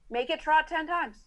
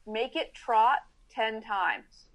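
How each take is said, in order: First: "trot" hit hard, pitched higher, falling at the end; emphatic repeat. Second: Slow, deliberate coaching command; slow instruction. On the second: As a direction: spell out the order slowly, word by word. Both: Shown as a demonstration. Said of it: "and I go like".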